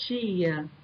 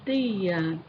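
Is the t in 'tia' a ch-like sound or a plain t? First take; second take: ch-like; plain t. First: The t is pronounced like a ch sound. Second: The t is pronounced as a plain t. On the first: "O T carioca, é uma pronúncia africada" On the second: "o T paraibano, já é uma pronúncia oclusiva"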